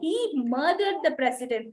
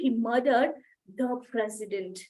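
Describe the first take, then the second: First: The word murdered carries the main stress. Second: The word president carries the main stress. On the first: The point is what was done: a murder. "అతను మర్డర్ చేశాడు అని చెప్తున్నాను" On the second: The point is who was killed, not someone else. "Gardner ని చంపలేదు, ప్రెసిడెంట్ ని చంపాడు"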